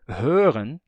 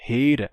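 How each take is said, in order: First: Standard German "hören" with rounded ö; pronúncia padrão. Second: "hören" said as HAY-ra, louder; pronúncia hunsriqueana. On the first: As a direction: round the lips on the first vowel of "hören", ending in n. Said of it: "Se souber alemão padrão". ("hören" com ö arredondado, como no alemão padrão) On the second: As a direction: unround the ö in "hören" and drop the final n. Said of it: "é isso daqui". ("hören" dito "hêira", sem n final) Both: Shown as a demonstration.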